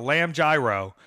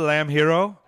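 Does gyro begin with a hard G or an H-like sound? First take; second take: hard G; H-like sound. First: Gyro begins with a hard G sound. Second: Gyro begins with a soft, H-like sound. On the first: The speaker calls it wrong. "I'm going to purposefully mispronounce the word gyro" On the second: The speaker calls it right. "he means a lamb hero"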